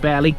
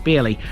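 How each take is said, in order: First: The first syllable rhymes with bare. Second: The first syllable rhymes with beer. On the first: "Some say Barely" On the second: "some say Beerley"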